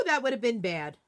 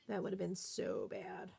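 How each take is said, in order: First: Said in the usual way. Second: Breathy whisper of relief; hushed relieved whisper; whispered aside. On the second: Real, not acted. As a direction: whisper it to yourself after a near miss. Repeats it under her breath.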